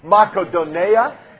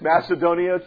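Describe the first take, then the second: First: The middle consonant is a k sound. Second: The middle consonant is an s sound. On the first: "it's actually pronounced Makedonia" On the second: "It's Macedonia to us most of the time"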